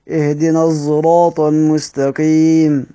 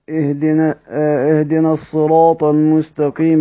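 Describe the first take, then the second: First: The word begins with s blended toward z. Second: The word begins with an emphatic s sound. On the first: "انتهيت بالاشمام" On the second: "بدأت بالصاد"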